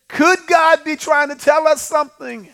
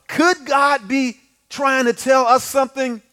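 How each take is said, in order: First: Raised high and ringing; higher emphatic question. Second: Drawn out slowly, each word weighed; slow rhetorical question. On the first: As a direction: lift the question up to the congregation. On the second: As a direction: ask it slowly so it sinks in. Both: Shown as a demonstration.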